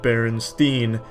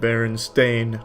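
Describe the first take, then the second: First: The last syllable sounds like 'steen'. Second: The last syllable sounds like 'stain'. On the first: The speaker calls it right. "I know it was Steen" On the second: The speaker calls it wrong. "it is Steen, not Stain"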